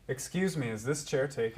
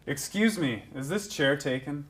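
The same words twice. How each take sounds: First: It is said fairly quietly. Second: It is said loudly.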